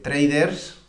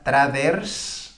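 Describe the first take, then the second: First: It is pronounced with English sounds. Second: It is pronounced with Spanish sounds.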